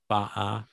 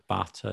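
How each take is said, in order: First: The middle t is replaced by a glottal stop. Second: The middle t is pronounced as a clear t. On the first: "You have like glottal stops where you say" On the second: "Instead of butter"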